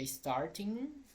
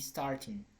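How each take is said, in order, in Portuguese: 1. A terminação tem um som de g velar completo. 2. A terminação é encurtada, sem o som de g.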